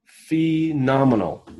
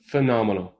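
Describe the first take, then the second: First: Phenomenal stretched long and slow; drawn-out praise. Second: Said in the usual way. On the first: Real, not acted. Host praising a sponsor's gift, Phenomenal drawn out slowly. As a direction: savor each syllable of Phenomenal.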